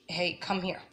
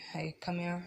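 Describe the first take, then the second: First: It is said in a raised, loud voice. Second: It is said in a soft, calm voice.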